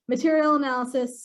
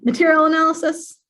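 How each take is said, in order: First: Said in the usual way. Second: MATERIAL ANALYSIS punched high and loud; emphatic. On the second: Real, not acted. Presenter emphasizing a favourite feature, emphatic. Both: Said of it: "again, I'll emphasize".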